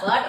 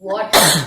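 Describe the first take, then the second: First: The word is said hard, without a roll. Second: The word is said softly with a rolled sound. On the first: The speaker calls it wrong. "గట్టిగా వాటర్ కాదు" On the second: The speaker calls it right. "It's వాటర్ ఆ రోల్"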